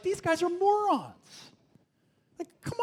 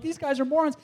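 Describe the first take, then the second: First: High, slow drawn-out scorn; scoffing. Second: High scoffing repeat. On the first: Young reader scoffing at the Israelites, high slow scorn. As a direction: stretch it out in disbelief. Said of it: "I'm just like". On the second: Young reader scoffing at the Israelites again, high. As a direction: toss it off with contempt. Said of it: "I'm like". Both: Retold or imitated.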